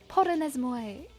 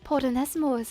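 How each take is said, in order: First: The word ends with a 'moy' sound. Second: The word ends with a 'moss' sound. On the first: The speaker calls it right. "I think that's muy instead of mose" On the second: The speaker calls it wrong.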